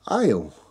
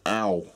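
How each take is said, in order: First: The word is said as standard 'ale'. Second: The word sounds like 'ow', a dialect form. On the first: The speaker calls it right. "I've got to say ale" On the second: The speaker calls it wrong. "I used to always say ow"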